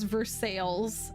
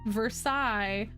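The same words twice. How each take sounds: First: It is pronounced the local American way. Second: It is pronounced the French way. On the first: This is how the locals actually say it. "everyone says it as Versailles" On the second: This is how the name is spelt, as in France. "a place that is spelt Versailles"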